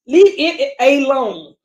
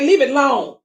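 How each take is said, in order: First: Slow, drawn-out Southern accent on "Leave it alone"; Southern drawl. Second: Said in the usual way. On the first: Real, not acted. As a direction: let the Southern dialect slip out, slowly. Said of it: "Oh, that Southern dialect coming out". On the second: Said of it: "that Southern dialect coming out".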